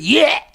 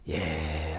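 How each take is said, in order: First: It is said with surging, agitated emotion. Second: It is said calmly and politely.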